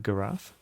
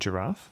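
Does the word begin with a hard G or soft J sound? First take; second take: hard G; soft J. First: It begins with a hard G sound. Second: It begins with a soft J sound. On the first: The speaker calls it wrong. "no one says like" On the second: The speaker calls it right. "words that start with G, but also have like a soft J sound"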